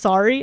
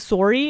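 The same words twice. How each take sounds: First: Sorry is said with a usual American vowel. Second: Sorry is said with a Canadian-sounding vowel.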